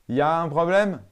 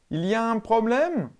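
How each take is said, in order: First: 'Il y a' is shortened to 'ya'. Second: 'Il y a' is said in full.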